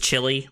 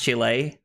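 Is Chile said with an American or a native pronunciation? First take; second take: American; native. First: It is said with an American English pronunciation. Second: It is said with a native Spanish pronunciation. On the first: This is the speaker's usual way of saying it. The speaker calls it wrong. "I don't think it's just Chile. Like like I would say" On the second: This is how the country's own people say it. The speaker calls it right. "I think it's actually pronounced Chile"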